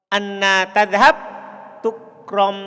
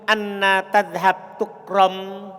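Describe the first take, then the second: No difference in how they are said.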